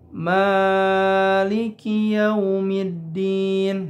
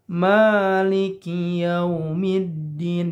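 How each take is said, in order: First: The first vowel is held flat and too long. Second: The first vowel is swung briefly, two beats. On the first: The speaker calls it wrong. "itu tidak tepat" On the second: The speaker calls it right. "harusnya Maliki yaumiddin. Di ayun saja, dua harkat"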